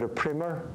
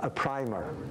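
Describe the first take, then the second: First: The first vowel rhymes with 'prim'. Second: The first vowel rhymes with 'prime'. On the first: This is the American way of saying it. "And you call it a primer, or the Boston people call it" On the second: This is the Irish way of saying it. "in Ireland we call it a, pr- a primer, uh, as, as a priming a pump"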